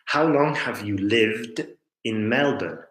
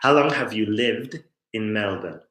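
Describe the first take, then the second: First: The question is said with exaggerated, deliberate emphasis. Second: The question is said at a natural, everyday pace.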